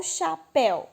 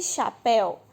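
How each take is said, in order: First: "chapéu" with the final "péu" kept as one syllable; "chapéu" in two beats, vowel glide unbroken. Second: "chapéu" broken into cha, pé, u; slow three-syllable split of "chapéu". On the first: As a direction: say "chapéu" joined up as cha-péu. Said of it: "Tem pessoas que têm dúvida". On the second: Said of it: "ou chapéu". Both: Shown as a demonstration.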